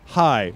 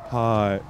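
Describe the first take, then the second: First: It is said in his regular voice. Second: It is said in a put-on voice.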